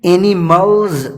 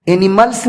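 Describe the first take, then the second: First: اینیملز said slowly with a buzzing z at the end; اینیملز ending in a clear z; correct pronunciation. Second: اینیملز said with a hissing s sound at the end; اینیملز ending in a sharp s, the way not to say it; wrong pronunciation. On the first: Teacher showing students the right way, slow اینیملز with a z. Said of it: "اس ایس کا تلفظ زا". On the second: Teacher showing students the mistake, اینیملز with an s. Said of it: "آپ ایسے نہ کہیں". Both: Shown as a demonstration.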